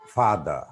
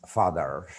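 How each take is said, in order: First: FATHER without the final r; "father" non-rhotic, ending in an open vowel; British pronunciation. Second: FATHER with the final r sounded; "father" ending on an r; American pronunciation. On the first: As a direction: say "father" as "fah-duh". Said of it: "British people don't always pronounce R". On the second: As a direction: say "father" rhotic, "fah-der". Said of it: "American people pronounce father". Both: Shown as a demonstration.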